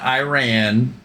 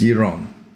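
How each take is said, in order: First: The name is not said the Iranian way. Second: The name is said the Iranian way. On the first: The speaker calls it wrong. "it's not Iran" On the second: The speaker calls it right. "it's Iran"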